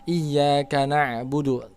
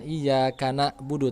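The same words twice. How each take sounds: First: The consonant is a throaty pharyngeal sound. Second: The consonant is a glottal stop. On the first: The speaker calls it right. "huruf ain bukan hamzah" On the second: The speaker calls it wrong. "jangan iyyaka na'budu"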